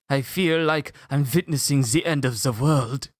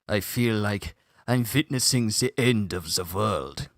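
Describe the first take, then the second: First: It is said in a higher voice. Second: It is said in a deeper voice.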